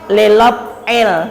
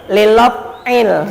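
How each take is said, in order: No difference in how they are said.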